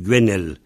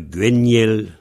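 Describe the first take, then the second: First: The middle vowel is a plain e sound. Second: The middle vowel is said like 'yé'.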